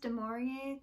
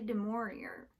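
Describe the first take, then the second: First: The name is pronounced with a French sound. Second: The name is pronounced with an English sound. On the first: "kind of like French" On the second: "I've also heard a lot of people say"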